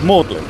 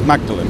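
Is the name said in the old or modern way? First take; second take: old; modern. First: The name is said in an old-fashioned way. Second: The name is said in a modern way. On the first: This is how the college is known. "the Old English pronunciation of" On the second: This is how the street and church are known. "that pronunciation is"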